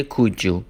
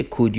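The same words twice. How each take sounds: First: "could you" blended into "kood-joo"; "could you" with a j in the middle; linked sounds. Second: Said in the usual way. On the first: Shown as a demonstration.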